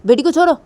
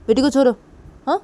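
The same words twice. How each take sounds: First: Loud, high, rising demand; angry demand. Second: Loud repeated order, falling; firm demand. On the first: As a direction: order her to let go. Demanding she release daughter. (गुस्से में ऊँची आवाज़ में माँग) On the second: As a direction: insist she let the girl go. (ज़ोर देकर दोहराया आदेश) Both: Acted.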